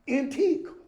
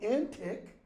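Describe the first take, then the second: First: The word ends in a long 'eek' sound. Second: The word ends in a short 'ick' sound. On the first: It means old. "and antique" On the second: It means crazy. "that word is pronounced both antic"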